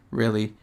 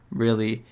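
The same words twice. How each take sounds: The two takes are said the same way.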